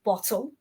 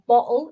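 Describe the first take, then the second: First: The T sound is crisp and clear. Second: The T sound is soft and weak. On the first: "they're not so crisp" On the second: "we may have softened up our T's"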